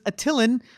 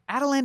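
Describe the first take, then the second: First: The middle consonant is a sharp t sound. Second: The middle consonant is a soft d-like sound. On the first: This is how it reads in the comic books. The speaker calls it right. "it's gotta have a sharp like t t" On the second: This is how the show pronounces it. The speaker calls it wrong. "Adelan doesn't sound as cool"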